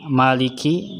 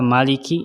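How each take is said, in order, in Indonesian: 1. Vokal pertama dibaca panjang. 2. Vokal pertama dibaca pendek. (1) "yang memiliki" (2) "jadi pendek yang raja"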